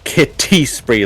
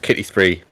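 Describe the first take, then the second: First: The T sounds are crisp and strongly emphasized. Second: The T sounds are soft and relaxed. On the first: It clearly means cats, not killing. "absolutely emphasizing the T's" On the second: It could be misheard as killing spree. "literally saying it completely normal"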